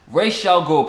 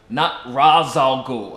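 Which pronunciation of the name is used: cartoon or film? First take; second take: cartoon; film. First: The name uses the animated series' pronunciation. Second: The name uses the live-action film pronunciation. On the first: The speaker calls it right. "Yes, Ra's al Ghul, people" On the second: The speaker calls it wrong.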